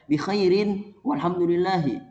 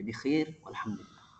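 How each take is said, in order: First: The words end with full vowel endings. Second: The words end without final vowels. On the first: The speaker calls it wrong. "Tidak perlu kita baca bi khairin walhamdulillahi. Jangan" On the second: The speaker calls it right. "harokat akhirnya disukunkan saja"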